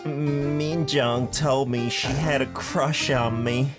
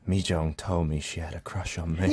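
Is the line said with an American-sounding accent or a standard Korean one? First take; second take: American; standard Korean. First: It is said with an American-sounding accent. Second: It is said with a standard Korean accent. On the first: The speaker calls it wrong. "In American English, right?" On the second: The speaker calls it right. "let me try again then"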